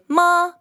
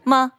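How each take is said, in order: First: The pitch stays high and level. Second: The syllable is short and light, unstressed. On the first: It means mother. "like that, and that means mother" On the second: It marks a question. "which means a question mark"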